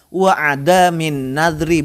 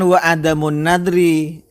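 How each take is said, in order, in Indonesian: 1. Kata sebelum 'nadri' berakhir dengan 'in'. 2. Kata sebelum 'nadri' berakhir dengan 'un'. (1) "Wa adamin nadri, bukan wa adamu" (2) "Bukan wa adamun nadri"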